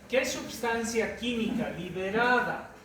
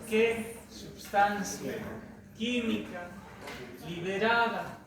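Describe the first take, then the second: First: The phrase is spoken at a fast pace. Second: The phrase is spoken at a slow pace. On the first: The speaker calls it wrong. "creo que hablo muy rápido" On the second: The speaker calls it right. "Voy a hacerlo más lento"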